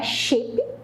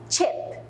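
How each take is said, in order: First: The word starts with a sound other than ch. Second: The word starts with a ch sound. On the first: The speaker calls it wrong. "não é chip" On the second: The speaker calls it right. "é chip em inglês"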